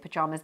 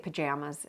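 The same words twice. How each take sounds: First: It is said with a British accent. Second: It is said with an American accent.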